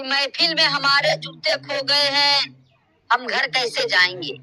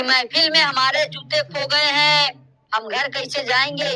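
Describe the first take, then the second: First: Measured, drawn-out couplet delivery; slow shayari recitation. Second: The couplet repeated at normal pace, a bit fuller; repeated shayari line. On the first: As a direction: recite it slowly like a poet on stage. (धीमे अंदाज़ में शायरी पढ़ना) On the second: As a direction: say the couplet again for effect, as a mushaira poet does. (शायरी की पंक्ति दोहराना) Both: Acted. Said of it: "चलो, मैं भी शायरी कर लेता हूँ".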